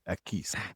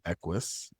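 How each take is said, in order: First: The name ends with an 'is' sound. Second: The name ends with an 'us' sound. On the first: The speaker calls it right. "it is Equis" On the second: The speaker calls it wrong. "it's not Equus"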